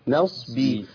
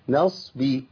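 The two takes are said the same way.

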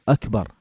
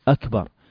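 First: The k sound is clipped short with no extra length. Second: The k sound is held slightly longer than usual. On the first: The speaker calls it wrong. "فما نقول أكبر" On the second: The speaker calls it right. "وإنما زيادة بسيطة أكبر"

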